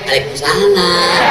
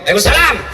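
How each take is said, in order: First: It is said in a soft, sultry voice. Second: It is said in a firm, curt voice.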